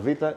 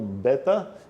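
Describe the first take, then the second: First: It starts with a V sound, Greek style. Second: It starts with a B sound, Portuguese style. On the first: "vou falar vita" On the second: "esse em português é chamado beta"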